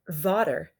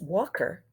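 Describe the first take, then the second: First: The first sound is v instead of w. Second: The middle sound is k instead of t. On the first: "They're saying v instead of w" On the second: "a k instead of t"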